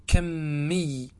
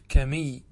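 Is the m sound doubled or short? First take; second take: doubled; short. First: The m sound is doubled and held longer. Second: The m sound is short and single. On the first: "أو تشدد الميم" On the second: "بالتخفيف"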